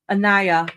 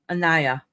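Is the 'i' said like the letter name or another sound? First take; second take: letter name; letter name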